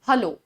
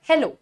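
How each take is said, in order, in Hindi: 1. पहला स्वर एक छोटा 'uh' ध्वनि है। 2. पहला स्वर एक खुला 'eh' ध्वनि है। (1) "हलो नहीं होता है" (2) "हेलो होता है"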